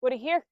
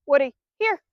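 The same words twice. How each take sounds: First: Said in the usual way. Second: Firm recall call. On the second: Shown as a demonstration. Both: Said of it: "I say".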